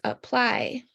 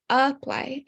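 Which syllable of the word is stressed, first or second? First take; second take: second; first. First: The stress is on the second syllable. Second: The stress is on the first syllable. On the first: The speaker calls it right. "it's apply. So that's why the P, L, and Y are capitalized" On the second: The speaker calls it wrong. "It's not apply"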